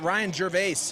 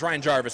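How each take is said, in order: First: The surname has a fancy, foreign-sounding pronunciation. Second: The surname has a plain English pronunciation. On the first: The speaker calls it wrong. "I try to make it all fancy" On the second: The speaker calls it right. "I know how to pronounce the name"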